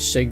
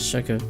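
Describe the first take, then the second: First: The word ends without an extra vowel. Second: The word ends with an extra vowel. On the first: The speaker calls it right. "Like you say, shake" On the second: The speaker calls it wrong. "not shaka"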